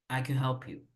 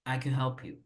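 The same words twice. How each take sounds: First: Can is said short with the vowel swallowed. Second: Can is said short with the vowel swallowed.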